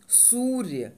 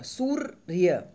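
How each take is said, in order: First: Said in the usual way. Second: सूर्य said very slowly, the र pulled onto the सू; slow, pulled together. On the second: Shown as a demonstration. Teacher showing the half र in सूर्य, slowly. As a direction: drag सूर्य slowly, र leaning back onto सू. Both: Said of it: "सूर्य को अपनी तरफ खींचेगा".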